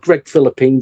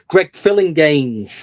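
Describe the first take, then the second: First: The surname sounds like the word 'Philippines'. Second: The surname sounds like 'Filling-gains'. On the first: The speaker calls it wrong. "It's not Greg Philippines" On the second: The speaker calls it right. "It's [name]"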